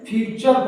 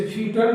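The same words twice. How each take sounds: First: "फ्यूचर" with T sounded as ch; ch pronunciation. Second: "फ्यूचर" with a hard T in place of the ch; wrong T pronunciation. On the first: Teacher showing students the correct reading, "फ्यूचर" with a ch sound. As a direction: say "फ्यूचर" as "fyu-char", a clear "cha" in the middle. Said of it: "टी के बाद यू आए तो टी चा की आवाज देता है". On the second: Teacher showing students how not to read it, "फ्यूचर" with a T sound. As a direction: misread "फ्यूचर" as "fyu-tar", T sounded plainly. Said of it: "चा की आवाज देता है". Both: Shown as a demonstration.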